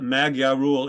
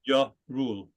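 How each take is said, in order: First: The gy is said with a hard g sound. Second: The gy is said as a soft j sound. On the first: The speaker calls it wrong. "It's not Magyar rule" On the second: The speaker calls it right. "That's the J"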